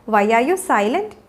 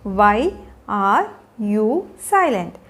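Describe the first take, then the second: First: Said in the usual way. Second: Slow and low, words spaced out. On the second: Shown as a demonstration. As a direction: pause clearly after every word. Teacher models question slowly, then joined.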